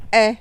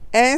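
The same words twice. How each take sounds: First: The vowel is said with the mouth open. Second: The same.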